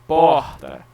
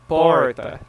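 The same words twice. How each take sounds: First: The R is said the common Brazilian way. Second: The R sounds like an English R. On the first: The speaker sounds like most Brazilians. "Majority of people in Brazil will say porta" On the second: The speaker sounds like someone from São Paulo. "But paulistas, porta"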